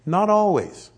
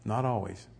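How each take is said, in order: First: Loud, high, emphatic NOT always. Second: "Not always." dropped low and soft. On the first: Preacher correcting his congregation, loud and emphatic. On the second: Preacher repeating his point quietly, soft and low. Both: Shown as a demonstration.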